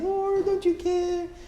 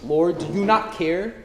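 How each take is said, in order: First: The question is asked in a soft, gentle tone. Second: The question is asked in a hard, stern tone. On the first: The speaker calls it wrong. "She's not saying" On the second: The speaker calls it right. "She's being stern"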